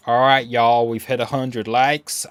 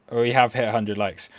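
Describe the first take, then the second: First: Hammed-up American accent with a y'all twang. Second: Said in the usual way. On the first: Shown as a demonstration. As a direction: put on a mock American accent. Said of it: "I'm gonna do American accent for y'all". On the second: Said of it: "I'm gonna do American accent".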